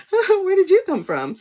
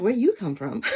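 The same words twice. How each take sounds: First: Much higher, louder, laughing through it; giggly high squeal of a question. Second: Asked through a laugh; laughing at her own question. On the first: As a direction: burst out with the question mid-laugh. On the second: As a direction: tease it out while laughing. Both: Retold or imitated. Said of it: "And I'm like".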